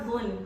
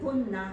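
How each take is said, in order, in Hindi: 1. शब्द रुके हुए व्यंजन पर खत्म होता है। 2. शब्द के अंत में एक छोटा स्वर जुड़ा होता है। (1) "वो दो साकिना लेटर्स आ गए थे साथ, वो प्रोनाउंस नहीं हो रहे थे" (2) "तो जबर लगाइए, जुन्ना है"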